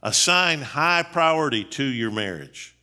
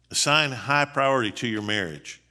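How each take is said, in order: First: Slow, deliberate first statement of the point; emphatic point. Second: Said in the usual way. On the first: Shown as a demonstration. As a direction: spell out the point word by word. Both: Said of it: "Number six".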